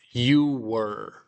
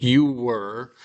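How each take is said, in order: First: Said in the usual way. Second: "you were" said slowly with the "you" leaned on and rising; slow, deliberate "you were" to correct "you was"; teacher's corrective emphasis on "you"; stress on you. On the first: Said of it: "but you were". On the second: Shown as a demonstration. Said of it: "not you was".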